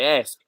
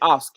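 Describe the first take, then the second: First: It is said with an American accent. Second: It is said with a New Zealand accent.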